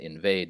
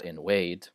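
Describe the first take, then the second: First: The middle consonant is a buzzing V sound. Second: The middle consonant is a rounded W sound. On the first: The speaker calls it right. "and invade" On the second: The speaker calls it wrong. "not invade"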